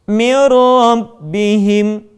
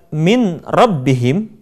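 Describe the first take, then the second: First: The n is merged into the following r. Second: The n is pronounced separately before the r.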